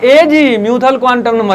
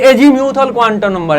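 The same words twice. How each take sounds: First: The first word is broken into two separate parts. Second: The first word is said smoothly as one word. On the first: The speaker calls it wrong. "ऐसे मत बोलना" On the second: The speaker calls it right. "ये एजी म्यूथल quantum number है"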